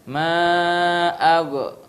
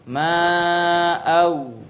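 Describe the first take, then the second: First: The gh sound ends with an echoing bounce. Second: The gh sound ends smoothly without a bounce. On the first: The speaker calls it wrong. "Maka jangan diqalqalah. Ya, jangan membaca" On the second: The speaker calls it right. "Tapi harus"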